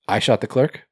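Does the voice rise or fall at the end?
rise. It ends in a rising, questioning tune.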